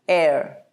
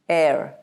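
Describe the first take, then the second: First: It is said in an American accent. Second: The same.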